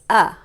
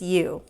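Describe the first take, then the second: First: The vowel is a short, clipped sound. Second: The vowel sounds like the letter's name. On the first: "U's short sound is Uh, like umbrella" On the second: "the long sound for U is U"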